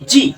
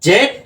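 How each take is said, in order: First: The letter name ends in an ee sound. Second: The letter name ends in a d sound. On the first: "আর জি হলো American accent" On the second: "জেড হলো তোমার হলো British accent"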